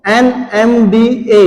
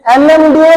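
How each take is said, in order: First: "NMDA" spelled out slowly, each letter separate. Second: Said in the usual way. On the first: Real, not acted. Answers own question, letter by letter. ("NMDA" एक-एक अक्षर अलग करके, धीरे)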